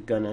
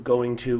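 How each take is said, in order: First: The words are merged into one short form. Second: Both words are said fully and separately.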